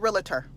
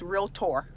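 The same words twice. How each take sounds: First: The word is said with three syllables. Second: The word is said with two syllables. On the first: The speaker calls it wrong. "Please don't say realtor" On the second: The speaker calls it right. "It's realtor"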